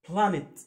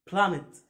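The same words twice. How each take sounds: The two takes are said the same way.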